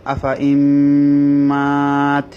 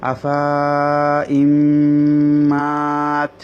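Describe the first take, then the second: First: "আফা" kept short, then a long held "ইম্মাত"; correct recitation. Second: "আফা" with the final vowel drawn long as written; pengucapan sesuai tulisan. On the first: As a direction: recite "আফা ইম্মাত" with silent alif, holding mm and aa. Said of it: "কিন্তু পড়তে হবে". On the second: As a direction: read "আফা ইম্মাত" slowly, stretching the alif after ফা. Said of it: "এখানে দেখুন লেখা আছে". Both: Shown as a demonstration.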